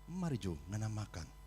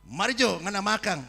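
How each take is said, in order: First: It is said in a gentle, friendly tone. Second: It is said in a harsh, snapping tone. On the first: The listener feels kindly invited to eat. The speaker calls it right. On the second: The listener feels scolded and becomes afraid. The speaker calls it wrong.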